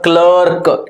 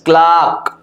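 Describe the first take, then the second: First: The vowel sounds like 'er' in 'her'. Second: The vowel sounds like a long 'ah'. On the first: The speaker calls it wrong. "it is not a clerk" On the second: The speaker calls it right. "its क्लार्क"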